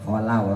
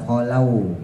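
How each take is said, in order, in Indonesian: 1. Suku kata 'la' diucapkan dengan jelas. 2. Suku kata 'la' tidak diucapkan dengan jelas. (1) "la-nya jelas" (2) "bukan kholau ya"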